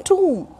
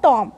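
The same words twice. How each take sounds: First: "tomb" rhyming with room; tomb as "toom". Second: "tom" with a short AW-like vowel; tomb wrongly as "tom". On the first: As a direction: say "tomb" with a long OO and no B. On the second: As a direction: say "tom" with an open O, not OO. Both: Shown as a demonstration. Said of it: "not tom".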